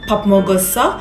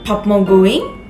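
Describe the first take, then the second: First: It is said in standard Seoul Korean. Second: It is said in Jeolla dialect, ending in 'ing'. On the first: "Standar bahasa Korea ketika bertanya seperti Babmogoseo" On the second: "dengan Jeollado Saturi menjadi Babmogoing"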